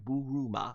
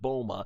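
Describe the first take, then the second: First: The name is said the Japanese way. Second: The name is said the English dub way. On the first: "how to pronounce it in Japanese" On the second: "also in the Funimation dub pronunciation"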